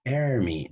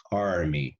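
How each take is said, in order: First: Army said as "ermi", drawn out; wrong vowel demo. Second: Army with an open "ah" before the r; normal pronunciation. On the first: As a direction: say army with "air" at the start, slowly. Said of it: "no voy a decir". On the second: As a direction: say Army as "AR-mee", open first vowel. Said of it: "Ahí tengo que pronunciar normal". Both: Shown as a demonstration.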